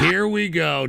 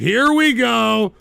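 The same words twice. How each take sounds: First: Said in the usual way. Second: Slow, drawn-out "Here we go"; long-suffering, strung-out groan of words; exasperated repeat. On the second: Real, not acted. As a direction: stretch "Here we go" in rising exasperation.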